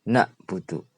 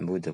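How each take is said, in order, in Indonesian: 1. Hamzah mengikuti vokal pertama. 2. Bunyi ain yang berat di tenggorokan mengikuti vokal pertama. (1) "pakai hamzah" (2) "pakai ain"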